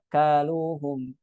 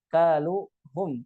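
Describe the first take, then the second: First: "Kaluhum" even and slow, no push on hum; no stress on pronoun. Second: "kaluhum" with a push on hum; stressed pronoun. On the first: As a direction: glide evenly through "Kaluhum". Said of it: "Tapi apa?". (tanpa nabr pada hum) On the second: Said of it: "jangan ditekan di dhamirnya". (tekanan pada dhamir hum) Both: Shown as a demonstration.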